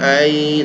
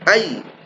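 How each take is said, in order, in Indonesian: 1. Bunyi y yang digandakan diucapkan ringan, tidak ditekan. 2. Bunyi y yang digandakan ditekan dengan penekanan. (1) "bukan ay" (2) "ya yang bertasydid kita tekan ya, ... tapi ay"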